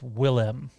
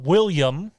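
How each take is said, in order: First: The name is said like 'Willem', ending in 'lem'. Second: The name is said like 'William', with a 'yum' ending. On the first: The speaker calls it right. "it's Willem" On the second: The speaker calls it wrong. "it's not William, although some people like to say it is"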